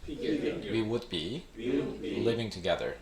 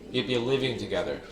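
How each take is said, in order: First: Said slowly with 'would' fully pronounced. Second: Said faster with 'would' reduced to a contraction.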